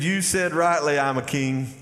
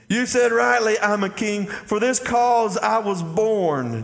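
First: Said in the usual way. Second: Proclaimed. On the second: Shown as a demonstration. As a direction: declare it like a royal claim, slowing at the end. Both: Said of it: "Jesus, y'all catch this".

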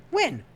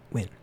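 First: High, pleading, exasperated question. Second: Said in the usual way. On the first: Real, not acted. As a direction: throw it up high in despair.

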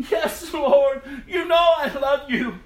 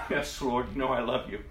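First: Loud, high, insistent answer; emphatic plea. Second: Said in the usual way. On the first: Acted. Peter answering Jesus a third time, emphatic plea. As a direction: cry it out with raised voice.

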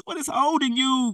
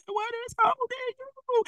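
First: Said in the usual way. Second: High, sustained plea as God's voice. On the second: Acted. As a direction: draw the question out high, as if God asks it. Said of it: "God said".

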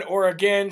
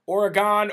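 First: Oregon as OR-uh-gen, short last vowel; alternative pronunciation. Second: Oregon as OR-uh-gahn, open last vowel; variant pronunciation. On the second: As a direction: say Oregon ending in a full GAHN. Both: Shown as a demonstration. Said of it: "Sometimes I say it wrong".

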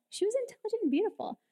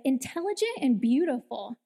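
First: High and fast. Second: Said in the usual way. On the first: Shown as a demonstration. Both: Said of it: "let me make sure I say it right".

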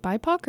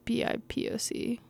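First: "bipoc" pronounced as a single word, BY-pock; said as one word. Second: "B I P O C" named letter by letter; spelled out. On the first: Reader checking how to say an acronym, "bipoc" as one word. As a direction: say "bipoc" as a word, not letters. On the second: Reader unsure of an acronym, "B I P O C" spelled out. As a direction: spell "B I P O C" as five separate letters. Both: Shown as a demonstration. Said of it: "is it bipoc or".

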